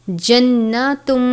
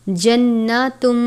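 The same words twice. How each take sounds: Both takes have the same delivery.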